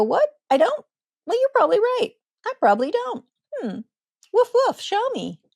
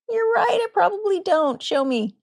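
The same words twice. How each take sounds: First: Playful doggy. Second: Playful, much higher voice with a light teasing touch; gentle humor. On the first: Parent playing a puppy for a snarling child, silly and high. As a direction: play the head-tilting puppy, woofing for fun. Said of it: "cock your head like a doggy and go". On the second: Parent answering a snarling child with gentle humor. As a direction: tease gently, head tilted, easy and light. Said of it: "say with gentle humor". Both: Acted.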